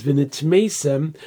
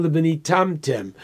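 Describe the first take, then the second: First: V'nitmeisem with a long MAY syllable, nit-MAY-sem; written reading. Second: V'nitamtem with a TAM syllable, ni-TAM-tem; alternative reading. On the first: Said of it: "don't read it as v'nitmeisem". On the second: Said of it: "but al tikri". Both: Shown as a demonstration.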